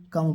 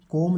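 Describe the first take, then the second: First: कम with a short open vowel; correct reading. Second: कॉम with a rounded o; wrong reading. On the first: Teacher correcting the children's reading, कम with short uh. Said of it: "कम पढ़ेंगे". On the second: Teacher warning children off a misreading, कॉम with o. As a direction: read कॉम with an o vowel. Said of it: "कॉम नहीं पढ़ेंगे बच्चों". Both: Shown as a demonstration.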